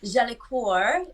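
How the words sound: The name is said the French way.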